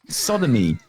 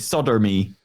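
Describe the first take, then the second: First: Solder is said without any R sound. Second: Solder is said with a strong R sound. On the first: "instead of an E" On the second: "we pronounce our R's more harshly"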